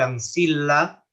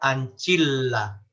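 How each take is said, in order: First: The c is a soft s-like sound. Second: The c is a ch sound. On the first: "se escribe ancilla" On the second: "se pronuncia anchilla"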